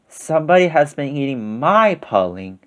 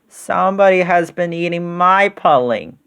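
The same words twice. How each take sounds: First: It is said in a middle-sized voice. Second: It is said in a wee little voice.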